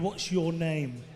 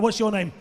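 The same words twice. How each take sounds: First: It is said at a slow pace. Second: It is said at a quick pace.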